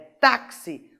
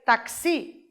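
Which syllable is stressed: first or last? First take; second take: first; last. First: The stress is on the first syllable. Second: The stress is on the last syllable. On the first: The speaker calls it right. "é táxi" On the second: The speaker calls it wrong. "se eu tirar esse acento, eu teria que ler taxi"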